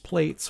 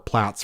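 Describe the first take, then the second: First: It is said with the American pronunciation. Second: It is said with the European pronunciation. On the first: "it is plates in America" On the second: "Platts for those of us in Europe"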